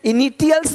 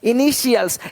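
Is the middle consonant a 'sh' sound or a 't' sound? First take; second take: t; sh. First: The middle consonant is a 't' sound. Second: The middle consonant is a 'sh' sound. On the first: The speaker calls it wrong. "इनिटियल्स नहीं बोलते" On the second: The speaker calls it right. "यानी इसी टी आई को ... श पढ़ते हैं"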